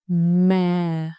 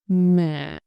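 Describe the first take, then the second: First: The pitch falls and stays low. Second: The pitch rises slightly, then dips down. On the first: "You just go down and stay low" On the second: "You go up slightly, then down and in"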